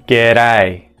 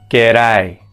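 No difference in how they are said.

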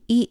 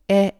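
First: The letter is named with an 'ee' sound. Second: The letter is named with an 'eh' sound. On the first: "영어는" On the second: "독일어는"

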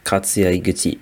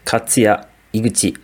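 First: The name is said at a quieter volume. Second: The name is said at a louder volume.

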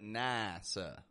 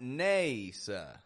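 First: The first vowel is a wide, open A. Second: The first vowel is a clear, tense A. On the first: The speaker calls it right. "But NASA. we use a wide A" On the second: The speaker calls it wrong. "Not NASA. I have heard a lot of people pronounce a clear, tense A sound here"

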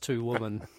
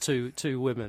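First: The word sounds like the singular 'woman'. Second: The word has the distinct plural vowel sound. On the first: "it's just two women" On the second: "There is no such thing as two women"

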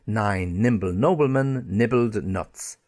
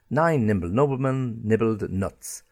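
Both takes have the same delivery.

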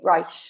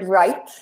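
First: The final T sounds like a soft sh. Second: The final T is a plain, crisp T. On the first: "you will hear people saying right. ... It's like a SH, like the shower" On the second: "Instead of saying the word right"

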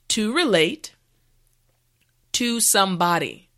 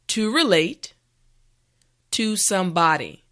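The two takes are said the same way.

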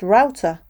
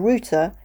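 First: The word has an American pronunciation. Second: The word has a non-American pronunciation. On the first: "would be pronounced router by a speaker of American English" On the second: "for me, a router is a little device"

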